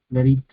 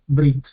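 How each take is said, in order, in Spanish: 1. Una vocal breve sigue a la primera consonante. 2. Ninguna vocal sigue a la primera consonante. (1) "según las leyes del hebreo bíblico... es vocalizado" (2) "en hebreo moderno eh, prácticamente no, no suena directamente, lo dicen Brit"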